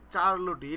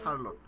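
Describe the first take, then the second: First: It starts with ch and ends in -tee. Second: It starts with sh and ends in -lot. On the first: A spelling-based form used to remember the spelling. The speaker calls it wrong. "আমি এটা মনে রাখতাম চার্লোটি" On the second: The real pronunciation of the name. The speaker calls it right. "উচ্চারণ হচ্ছে শার্লট"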